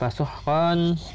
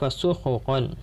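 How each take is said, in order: First: No vowel is heard between h and q. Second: A short u vowel is heard between h and q. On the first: "bisukunil kha'i" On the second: "wa dhammiha"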